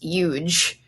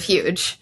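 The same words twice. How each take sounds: First: The word starts without an H sound. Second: The word starts with an H sound. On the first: "the H is often dropped in some American dialects" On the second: "instead of huge"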